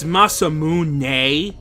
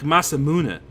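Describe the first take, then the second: First: The word ends with a strong, drawn-out nay. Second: The word ends with a lighter, shorter neh sound. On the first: "like with a really pronounced nay at the end" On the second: "but not with as much of an a sound as I put at the end"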